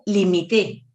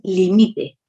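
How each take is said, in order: First: The stress is on the last syllable. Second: The stress is on the middle syllable. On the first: "llevaría la tilde en la, en la E" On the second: "Limite no lleva tilde"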